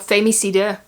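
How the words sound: The word is pronounced the Dutch way.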